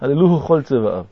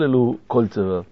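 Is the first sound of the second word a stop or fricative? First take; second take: fricative; stop. First: The second word begins with a soft fricative. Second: The second word begins with a hard stop. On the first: The speaker calls it right. "אז הדגש בבגד כפת נופל" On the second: The speaker calls it wrong. "לא"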